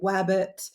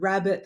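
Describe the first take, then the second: First: The word begins with a W sound. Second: The word begins with an R sound. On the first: The speaker calls it wrong. "they say" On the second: The speaker calls it right. "or instead of"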